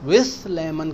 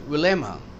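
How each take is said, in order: First: The th sound in with is pronounced. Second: The th sound in with is dropped. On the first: The speaker calls it wrong. "विथ lemon कहने की जरूरत नहीं" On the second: The speaker calls it right. "L की वजह से टी एच ना कहें"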